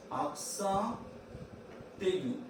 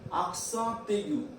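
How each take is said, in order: First: "Accent", long pause, then "aigu"; word by word. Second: Said in the usual way. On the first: Shown as a demonstration. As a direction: dictate "Accent ... aigu" in separate pieces. Teacher breaks term for copying.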